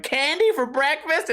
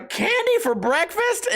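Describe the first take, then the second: First: Put-on higher, slow, delighted kid voice; happy kid. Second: Put-on much higher, slow, delighted kid asking; excited kid. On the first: Happy kid in the skit asking for candy, high delighted. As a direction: ask it like an overjoyed child. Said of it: "some happy-ass kid going". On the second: Happy kid in his skit asking mom, high delighted voice. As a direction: gasp it like a thrilled little kid. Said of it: "where they go".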